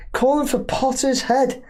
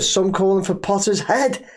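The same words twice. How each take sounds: First: Incredulous echo. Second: Said in the usual way. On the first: Real, not acted. Host repeating the fans' demand back, incredulous and higher. Echoing the comment in disbelief.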